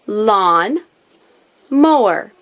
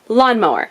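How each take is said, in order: First: The word is said slowly, in parts. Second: The word is said quickly, as one.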